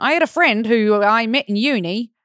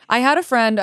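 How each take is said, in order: First: Weak attempt at Australian accent; bad Australian accent. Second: Said in the usual way. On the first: Shown as a demonstration. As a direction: try a clumsy Australian accent. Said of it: "Okay, that was terrible". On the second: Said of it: "I wish I could read this in an Australian accent".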